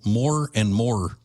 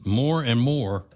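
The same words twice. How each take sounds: First: "more and more" drawn out slowly, Cajun-style; slow Cajun accent on "more and more". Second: Said in the usual way. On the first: Retold or imitated. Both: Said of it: "as the Cajuns would say".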